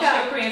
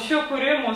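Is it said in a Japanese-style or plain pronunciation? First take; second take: plain; Japanese-style. First: It is said with a plain, non-Japanese pronunciation. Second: It is said with a Japanese-style pronunciation.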